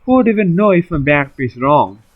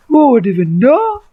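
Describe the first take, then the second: First: Said in the usual way. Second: High mocking repeat of the question; mock high echo. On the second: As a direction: echo it back much higher, scornful.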